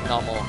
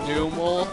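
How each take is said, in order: First: The first vowel is a short 'uh' sound. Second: The first vowel is a long 'oo' sound. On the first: "I like Nummel" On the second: "that would make it go from uh to oo"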